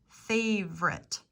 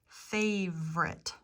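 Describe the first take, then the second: The two takes are said the same way.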